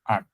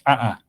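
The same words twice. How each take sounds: First: The vowel ends with a glottal stop. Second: A glottal catch breaks the vowel in the middle. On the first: "just as a final glossal stop" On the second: "a broken vowel"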